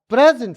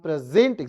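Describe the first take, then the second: First: The stress is on the first syllable. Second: The stress is on the second syllable. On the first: It is a noun meaning a gift. "प्र जोड़ से gent आराम से" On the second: It is a verb meaning to show or offer. "Gent को जोड़ से बोलना है"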